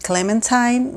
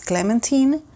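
First: It is pronounced the American English way. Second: It is pronounced the French way. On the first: "In the US, we pronounce it Clementine" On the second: "but in French it's Clementine"

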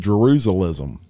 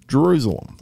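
First: The last syllable sounds like 'lism'. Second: The last syllable sounds like 'lem'. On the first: The speaker calls it wrong. "I used to say Jerusalism" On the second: The speaker calls it right. "and I pronounced it right"

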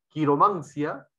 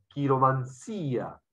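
First: The stress is on the third syllable. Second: The stress is on the fourth syllable.

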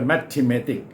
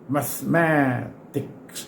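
First: The word is said with four syllables. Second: The word is said with three syllables. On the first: The speaker calls it wrong. "มีตัว e ด้วย mathematic ซึ่งผิดนะครับ" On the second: The speaker calls it right. "ไม่ใช่มัทธิเมติกสี่พยางค์แต่นี่มัสแมติกส์สามพยางค์"

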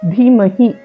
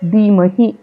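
First: The first consonant is an aspirated dh sound. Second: The first consonant is a plain unaspirated d. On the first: The speaker calls it right. "ధీ ఒత్తు ధాతో కలిపి ధీమహి అని పలకాలి" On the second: The speaker calls it wrong. "ధీమహి అనేది correct కాదు"

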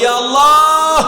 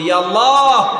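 First: It is said even more loudly. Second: It is said loudly. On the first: "আরো জোরে বলি" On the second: "জোরে বলি"

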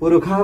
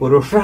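First: The middle consonant sounds like kh. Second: The middle consonant sounds like sh. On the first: This is the Vedic recitation form. "वेदे ख इति पुरुषः वदामः" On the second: This is the everyday spoken form. "लोके पुरुषः इति वदामः"

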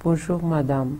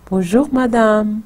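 First: It sounds flat and forced, not like a greeting. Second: It sounds warm and expressive, like a real greeting.

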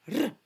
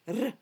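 No difference in how they are said.

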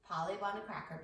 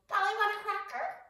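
First: It is said in her normal voice. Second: It is said in a squawky parrot voice.

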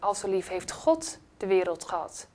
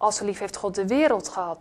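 First: The word "God" carries the main stress. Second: The word "wereld" carries the main stress. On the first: It matters who it is that loved. "God, wie is hij?" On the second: The world was loved, not angels or saints. "Er staat niet engelen, heiligen. Nee, hij heeft de wereld lief gehad"

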